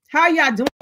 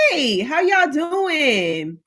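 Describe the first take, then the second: First: Said in the usual way. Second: Slow, stretched sing-song hello; drawn-out greeting. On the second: Acted. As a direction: stretch every word like a warm welcome. Streamer greeting viewers in chat.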